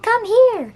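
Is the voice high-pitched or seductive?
high-pitched. The voice is high-pitched and unsexy. The speaker calls it wrong.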